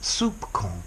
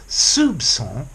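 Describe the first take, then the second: First: The middle consonant is a K sound. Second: The middle consonant is an S sound. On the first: The speaker calls it wrong. "not soupçon" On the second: The speaker calls it right. "the C should be pronounced as an S"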